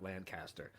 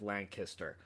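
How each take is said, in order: First: "Lancaster" said as LAN-cast-er, softer; outsider's pronunciation. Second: "Lancaster" said as LANK-iss-ter; local pronunciation. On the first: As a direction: give "Lancaster" a full "cast" in the middle. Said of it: "it is Lancaster". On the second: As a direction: squeeze the middle of "Lancaster" down to a short "kiss". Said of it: "not Lancaster". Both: Shown as a demonstration.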